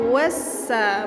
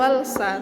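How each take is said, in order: First: The l merges into a doubled s sound. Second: A clear l sound comes before the s. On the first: The speaker calls it right. "Jadi cara bacanya wassa" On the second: The speaker calls it wrong. "bukan walsa"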